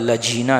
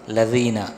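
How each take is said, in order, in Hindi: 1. बीच का व्यंजन j जैसी आवाज़ है। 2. बीच का व्यंजन d जैसी आवाज़ है। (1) "सिरातल लजीना नहीं" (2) "दाल है तो दाल पढ़ा जाए"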